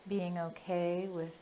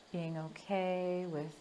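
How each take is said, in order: Both takes have the same delivery.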